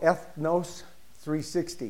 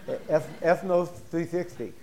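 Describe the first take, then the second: First: The name is said in a plain, flat way. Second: The name is said with an upbeat, lifted voice.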